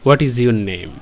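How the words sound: It is said with a statement intonation. It is a general remark, not a question. "শুধুমাত্র একটা ফুল stop দিই তখন আমাকে এইভাবে বলতে হবে"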